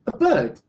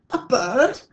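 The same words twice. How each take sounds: First: "A bird" loud and high, falling at the end; emphatic "A bird" with a falling tune; confident answer. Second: "A bird?" high and loud, rising at the end; incredulous echo on "A bird?", swooping upward; puzzled question. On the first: Acted. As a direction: answer "A bird" as a firm statement, dropping the pitch. Sue answers the others' question. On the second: A narrator's reading. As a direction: ask "A bird?" in astonishment, lifting the pitch. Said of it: "asked the others".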